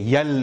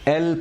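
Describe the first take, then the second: First: It starts with a y sound before the vowel. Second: It starts directly with the vowel, no y. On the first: The speaker calls it wrong. "यल नहीं" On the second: The speaker calls it right. "जैसे हमने एफ पढ़ा था वैसे ही हम इसको एल पढ़ेंगे"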